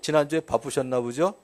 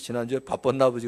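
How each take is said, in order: First: It is said lightly, with a smiling voice. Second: It is said flatly and coldly, without warmth. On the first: It is just a question. "진짜 이렇게 웃으면서 물어볼 때는 화난 거 아니에요" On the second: The speaker is extremely angry. "정색을 하고 아예 표정 없이"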